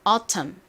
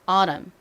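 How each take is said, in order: First: The middle t is a clear, crisp t. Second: The middle t is a soft, l-like flap. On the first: "이렇게 발음을 하지 않고" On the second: "꼭 autumn 리을 마냥 발음을 하는 경우가 많습니다"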